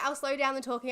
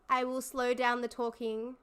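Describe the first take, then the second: First: The sentence is spoken very fast. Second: The sentence is spoken slowly.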